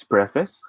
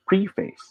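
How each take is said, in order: First: Preface said PREH-fuhs, short E, stress first. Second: Preface said PREE-face, long E, second half like face. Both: Shown as a demonstration. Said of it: "if it is preface".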